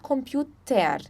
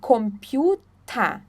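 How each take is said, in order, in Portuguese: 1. O final é falado com um som de 'er' bem claro. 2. O final é falado como um 'ah' aberto. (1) "Nós não falamos computer" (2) "é computer. Tá, então o E R tem som de A"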